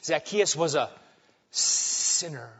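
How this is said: It is said with a disgusted, awful tone.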